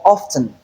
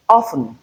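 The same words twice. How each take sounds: First: Often with the T sounded, OFF-ten; second variant of often. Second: Often with silent T, OFF-en; first variant of often. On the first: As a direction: say often with a clear T. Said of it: "it is in free variation". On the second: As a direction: say often leaving out the T. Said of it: "two pronunciations". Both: Shown as a demonstration.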